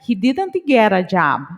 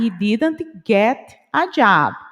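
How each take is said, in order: First: It is said fast, with get and a linked. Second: It is said slowly, each word separate. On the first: "Ficou junto o get com a" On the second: "Se eu falo devagar"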